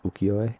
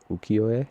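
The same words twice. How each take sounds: First: Ukiyo-e said again as oo-kee-yo-eh after spelling it, rising; ukiyo-e repeated with each syllable clear; careful pronunciation. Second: Ukiyo-e said carefully as oo-kee-yo-eh, rising at the end; ukiyo-e with each syllable clear and a rising end; careful pronunciation. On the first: Confirming the word for listeners after spelling it, careful. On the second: Vlogger naming a Japanese art style, careful pronunciation. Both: Shown as a demonstration. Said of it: "I need to make sure I pronounce this right".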